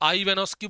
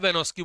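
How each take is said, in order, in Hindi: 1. नाम एक अतिरिक्त स्वर ध्वनि के साथ शुरू होता है। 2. नाम एक अतिरिक्त स्वर ध्वनि के बिना शुरू होता है। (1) "आई वेनोस्की बोल दीजिए" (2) "आई इसमें साइलेंट आप बोल सकते हो"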